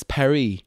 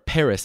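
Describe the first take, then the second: First: "Paris" said the French way, silent s; French pronunciation. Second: Said in the usual way. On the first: Shown as a demonstration. Traveler naming the city he visited, "Paris" in French pronunciation. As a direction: say "Paris" as "pah-ree".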